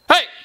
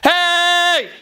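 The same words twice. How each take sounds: First: The shout is short. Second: The shout is held long.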